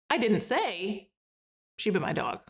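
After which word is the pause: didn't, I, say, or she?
say. There is a pause after the word say. "and then pause after say"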